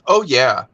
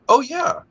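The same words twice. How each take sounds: First: It is said in a sarcastic tone. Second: It is said in a sincere tone. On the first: She does not really like it. "is she being sarcastic when she says" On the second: She genuinely likes it. "or is it"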